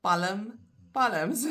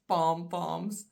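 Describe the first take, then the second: First: Palm, palms with the l sounded and a schwa before the m; Afrikaans pronunciation. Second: Said in the usual way. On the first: Shown as a demonstration. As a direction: say Palm as "PAL-uhm", palms as "PAL-uhms". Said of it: "in Afrikaans". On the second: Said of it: "the palm of your hand".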